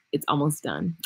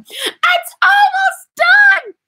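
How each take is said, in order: First: Low and soft, letting the secret slip; hushed secret. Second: Long, drawn-out high shout of joy; excited shout. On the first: Hushed teaser to her viewers before the big cheer. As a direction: murmur it like a secret reveal. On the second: Excited squeal about her almost-finished product. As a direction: belt it out in delight, stretching every word. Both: Real, not acted.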